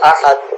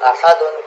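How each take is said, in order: First: The word stops without the final n sound. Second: The word ends with an added n sound.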